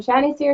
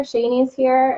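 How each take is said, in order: First: "Shani's" said SHAN-eez, first vowel as in "shan't" in American English; Shani with short A. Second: "Shani's" said SHAY-neez, first vowel as in "day"; Shani with long A. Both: Shown as a demonstration. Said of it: "how do I say your name?".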